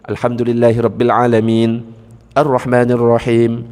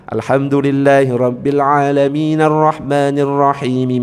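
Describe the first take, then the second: First: There is a stop after alamin before arrahman. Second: A final 'a' vowel joins alamin to arrahman. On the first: "Kalau nggak disambung, harus berhenti" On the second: "Kalau mau nyambung, harus fathahnya dinyalakan"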